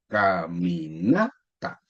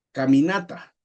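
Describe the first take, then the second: First: "Caminata" stretched out, rising on NA before a separate TA; syllable by syllable. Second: Said in the usual way. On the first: Shown as a demonstration. Teacher showing four syllables, slow stretched "Caminata" rising on NA. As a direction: draw out each syllable of "Caminata", leaning on NA. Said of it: "cuatro sílabas". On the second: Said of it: "Por ejemplo".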